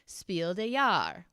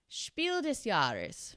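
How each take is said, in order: First: It is said with a French-style pronunciation. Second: It is said with a German-style pronunciation. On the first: The speaker calls it wrong. "which is like a French French pronunciation" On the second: The speaker calls it right. "I know how to say it like that"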